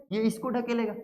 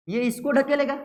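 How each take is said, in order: First: इसको carries the weight, ढकेलेगा drops away; stress on इसको, falling. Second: ढकेलेगा lifted and hit harder; stress on ढकेलेगा. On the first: Teacher repeating which charge gets pushed, इसको stressed. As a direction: lean on इसको and let the line fall. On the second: Teacher showing students which charge pushes, ढकेलेगा stressed. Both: Shown as a demonstration.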